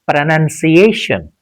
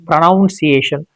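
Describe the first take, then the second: First: The second syllable sounds like 'nun'. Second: The second syllable sounds like 'noun'. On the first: The speaker calls it right. "It is pronunciation" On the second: The speaker calls it wrong. "Sometimes people say pronunciation, pronunciation. It is not pronoun"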